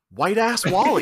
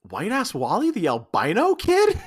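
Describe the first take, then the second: First: Proud reveal. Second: Incredulous laughing. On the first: Alan Cumming's character revealing his old nickname to her, proudly. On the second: Josie recognizing her old classmate, laughing in disbelief. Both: Acted.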